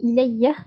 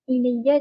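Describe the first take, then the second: First: The word ends with an added h sound. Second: The word ends on a plain vowel.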